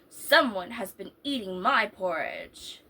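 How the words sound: It is said in a great big voice.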